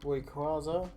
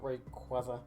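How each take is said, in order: First: The k is said without a following w sound. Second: The k is followed by a w sound. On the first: The speaker calls it right. "It's Rayquaza" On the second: The speaker calls it wrong. "not Rayquaza ... where's the W in his fucking name?"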